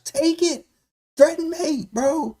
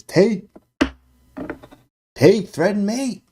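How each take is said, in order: First: Very high, shrill mock scream. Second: High, loud reading of a shouted message; all-caps chat message. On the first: Streamer screaming out a chat message for the viewers, in a mock scream. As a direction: scream the suggestion at the board. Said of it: "Screaming it". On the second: Retold or imitated. Streamer reading a viewer's all-caps move suggestion, loud and high. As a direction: read it like it's typed in all caps. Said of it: "All caps".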